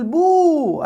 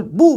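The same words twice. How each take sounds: First: بو stretched out high; wrong long vowel. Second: بو clipped short and quick; quick short vowel. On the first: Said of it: "اوعى تقول بو". (بو بمدّ الواو غلط) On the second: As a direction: say بو fast, with no lengthening. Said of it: "نقول بو بسرعة". (بو قصيرة وسريعة) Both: Shown as a demonstration.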